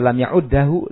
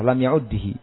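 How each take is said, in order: First: The doubled d is followed by an a vowel. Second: The doubled d is followed by an i vowel. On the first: "da di fathah" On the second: "dengan kasrah"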